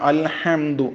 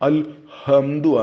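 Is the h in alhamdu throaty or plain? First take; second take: throaty; plain. First: The h is a strong throaty sound. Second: The h is a light plain sound. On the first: The speaker calls it right. "ഹാ തന്നെ മൊഴിയണം" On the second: The speaker calls it wrong. "ആകരുത്"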